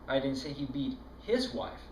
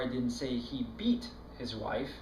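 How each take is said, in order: First: The word 'his' carries the main stress. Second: The word 'beat' carries the main stress. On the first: It was another man's wife. "No, it was that other guy's wife that he was beating" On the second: He did something milder than beating. "He slapped her around a little, but he sure didn't beat her"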